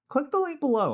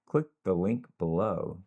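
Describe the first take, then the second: First: It sounds natural, relaxed and higher in energy. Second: It sounds stiff, flat and low in energy. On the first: The speaker calls it right. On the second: The speaker calls it wrong.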